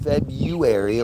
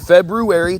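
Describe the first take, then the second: First: The word is said in the common everyday pronunciation. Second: The word is said in a careful, full pronunciation. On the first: The speaker calls it wrong. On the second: The speaker calls it right.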